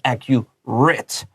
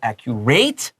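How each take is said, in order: First: The final syllable sounds like 'it'. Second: The final syllable sounds like 'eight'. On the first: The speaker calls it right. "Adjectives will 发 it" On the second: The speaker calls it wrong. "你不要说 accurate"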